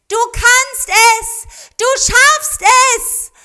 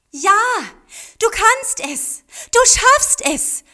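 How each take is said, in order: First: Put-on very high, loud, slow children's call; children cheering their swan into the sky, high and loud; calling out together. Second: Put-on high, loud, slow child's cheer; girl urging her swan to fly, high and loud; encouraging call. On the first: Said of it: "riefen Mariko und Kazuo ihrem Schützling zu". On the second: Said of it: "rief Mariko ermutigend". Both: A narrator's reading.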